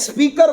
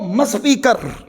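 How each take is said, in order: First: The word starts directly with the s sound. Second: An m sound is added before the s sound.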